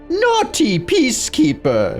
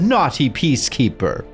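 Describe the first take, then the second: First: It is said in an evil villain voice. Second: It is said in a plain, normal voice.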